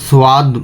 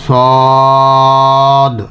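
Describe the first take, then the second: First: A 'w' glide follows the first consonant. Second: No glide follows the first consonant. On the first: The speaker calls it wrong. "এটা অনেকে সোয়াদ বলে" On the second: The speaker calls it right. "এটা উচ্চারণ হবে সাদ"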